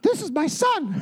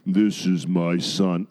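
First: High, squeaky cartoon voice. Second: Booming voice. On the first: Preacher mocks how God doesn't sound, squeaky chipmunk voice. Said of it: "like Alvin and the Chipmunks". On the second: Acted. Preacher voices God at the baptism, booming and deep. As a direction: boom it out low and slowly. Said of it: "you hear this booming voice".

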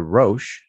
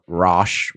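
First: "Roche" as roash, long o; right pronunciation. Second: "Roche" with a short ah vowel; wrong pronunciation. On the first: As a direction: say "Roche" rhyming with coach. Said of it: "it's pronounced the Roche". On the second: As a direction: say "Roche" like rosh. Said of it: "Not Roche". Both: Shown as a demonstration.

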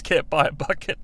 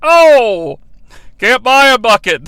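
First: Said in the usual way. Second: Loud arcade-announcer call on "can't buy a bucket"; punchy game announcer; NBA Jam announcer. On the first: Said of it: "That's my favorite". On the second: Retold or imitated. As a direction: hype it like a video game commentator. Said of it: "just like the N B A Jam announcer".

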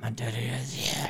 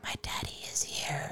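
First: Put-on low, hushed possessed-child voice; creepy voice. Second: Put-on eerie whispered child's line; creepy whisper. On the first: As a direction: breathe it like a haunted little girl. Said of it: "I heard it more, like, in a creepy voice". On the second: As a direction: whisper it like a ghost is near. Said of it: "where she's like".

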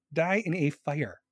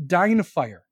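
First: Drawn-out, slower deadpan curse; slow mock curse. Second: Louder, punchy mock curse. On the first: Repeating the curse to the viewer with AC, slow and deadpan. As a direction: savour each word like a slow hex. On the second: Jokingly cursing the viewer who has AC, punchy mock curse. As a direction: bark it out as a joking hex.

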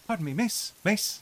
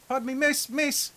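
First: Higher, still-bad Irish accent retry; second Irish accent try. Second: High, exaggerated bad Irish accent; a clumsy stab at an Irish beggar. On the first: GM retrying the Irish beggar, bad Irish accent again. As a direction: have another go at an Irish beggar. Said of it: "That's awful, too". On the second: GM voicing an Irish beggar to the players, bad Irish accent. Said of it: "that's an awful Irish accent".

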